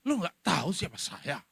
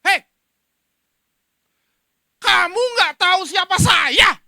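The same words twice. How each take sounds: First: Lightly voiced offended snub; a touch of haughty you-don't-know-who-I-am; hinted arrogant brush-off; mild mock indignation. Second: Furious soldier yelling, higher and louder; angry shout. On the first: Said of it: "Begitu ada yang kritik". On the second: Retold or imitated. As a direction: bellow it at the man who hit him. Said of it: "dalam marahnya bilang".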